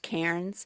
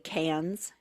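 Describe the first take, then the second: First: It is said with the R pronounced. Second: It is said Australian-style, with the R dropped.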